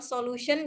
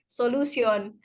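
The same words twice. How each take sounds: First: It is said in a plain accent. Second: It is said in a Nigerian accent. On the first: "Bilang solution" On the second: "orang-orang Nigeria itu ... logatnya beda"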